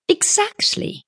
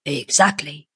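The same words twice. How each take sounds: First: Very high "exactly", rising; young woman's retort. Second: Businessman's confirmation. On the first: Young woman seizes on businessman's liberal terms, pointed. Tuppence seizes on his words. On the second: Businessman confirms the Paris school to his visitor, smooth. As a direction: confirm it evenly, voice falling. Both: A narrator's reading.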